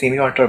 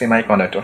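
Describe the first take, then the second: First: The first part ends in an 'ee' sound. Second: The first part ends in an 'eye' sound. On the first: This is how people in the speaker's country say it. "আমাদের দেশের মানুষজন হচ্ছে সেমি conductor বলে" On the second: This is how it is said in lectures from abroad. "এটার actual প্রোনাউন্সিয়েশনটা আসলে সেমাই conductor"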